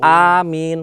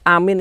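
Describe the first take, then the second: First: The first vowel is long. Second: The first vowel is short. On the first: It means may it come true. "double A ... panjang satu alif" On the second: It means safe. "A-nya satu ... maknanya aman"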